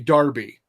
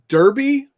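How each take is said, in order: First: The word is said in a British way. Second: The word is said in an American way.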